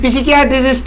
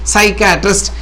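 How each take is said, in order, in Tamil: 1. வார்த்தை p ஒலியுடன் தொடங்குகிறது. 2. வார்த்தை s ஒலியுடன் தொடங்குகிறது.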